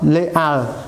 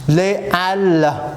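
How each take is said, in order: First: The s of les links into halles. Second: The words are kept apart with no liaison. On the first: The speaker calls it wrong. "ដាច់ខាតកុំអានថា les halles non" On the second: The speaker calls it right. "សូមអានថា"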